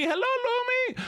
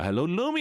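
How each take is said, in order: First: Much higher, squeaky hello; high squeaky greeting. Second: Said in the usual way. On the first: Shown as a demonstration.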